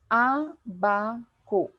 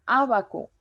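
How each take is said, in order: First: Abaco very slowly split as Á... ba... co; drawn-out abaco, first syllable stressed. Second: Abaco with a firm stress on the opening A; stress on first syllable. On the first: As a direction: break abaco into three slow syllables. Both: Shown as a demonstration. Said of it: "En la antepenúltima sílaba".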